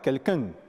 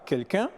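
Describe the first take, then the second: First: It is said with an added n sound. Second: It is said with a standard French pronunciation. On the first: "le Camerounais dira" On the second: "un Français dira"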